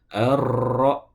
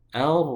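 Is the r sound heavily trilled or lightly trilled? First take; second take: heavily; lightly. First: The r is trilled strongly with many repetitions. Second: The r is trilled lightly with few repetitions. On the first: The speaker calls it wrong. "tidak boleh membacanya ar" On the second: The speaker calls it right. "tapi ar"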